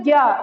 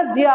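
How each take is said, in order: First: "ज्ञा" said as gyaa, hard g; common mispronunciation. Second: "ज्या" said as jiyaa, falling; Sanskrit pronunciation. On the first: Teacher rejecting the habit in Sanskrit, "ज्ञा" as gyaa. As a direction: give "ज्ञा" a hard g before yaa. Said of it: "सही pronunciation Sanskrit में ज्ञा नहीं होता". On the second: Teacher stating the correct Sanskrit sound, "ज्या" as jiyaa. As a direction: give "ज्या" a j gliding into yaa. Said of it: "इसका सही pronunciation Sanskrit में". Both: Shown as a demonstration.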